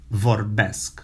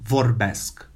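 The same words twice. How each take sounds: The two takes are said the same way.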